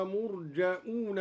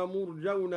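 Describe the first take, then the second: First: مرجؤون with a hamza and a long u, murja'una; hamza after jim. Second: Said in the usual way. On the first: Shown as a demonstration. Teacher shows al-Duri's hamza reading. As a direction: stop on the hamza in مرجؤون, then stretch the u. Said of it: "وواو مدية". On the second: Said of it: "بهمزة بعد الجيم".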